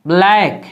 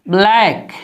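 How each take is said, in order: Both takes have the same delivery.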